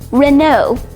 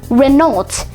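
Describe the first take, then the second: First: The final t is silent. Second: The final t is pronounced. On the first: The speaker calls it right. "actually pronounced" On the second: The speaker calls it wrong. "commonly mispronounced"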